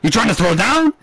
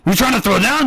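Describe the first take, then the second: First: Mock gangster challenge. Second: Same taunt tossed again, a bit higher; higher repeat of a mock gangster dare; mock gangster challenge, repeated. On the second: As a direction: keep the hammed-up tough-guy taunt going. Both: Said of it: "gangster quarrel".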